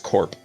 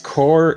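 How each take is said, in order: First: The word ends with a p sound. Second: The word ends without a p sound. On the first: It refers to a company. "If it's a company, it's corp" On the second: It refers to a military unit. "it's core if it's army related"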